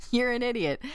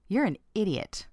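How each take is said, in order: First: Higher, pointed insult; really meaning it. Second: Matter-of-fact insult; somewhat neutral tone. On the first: Coworker insulting colleague over forgotten keys, meaning it. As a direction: say it as if you truly mean it. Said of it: "if they really meant it". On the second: Coworker to colleague who forgot keys, fairly neutral. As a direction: say the put-down evenly, without force. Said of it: "said that in a somewhat neutral tone". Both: Acted.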